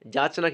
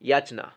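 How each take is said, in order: First: The word starts with a j sound. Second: The word starts with a y sound. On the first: The speaker calls it wrong. "যাচনা কিন্তু হবে না" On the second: The speaker calls it right. "ইয়া ইয়া অন্ত্যস্ত ইয়া"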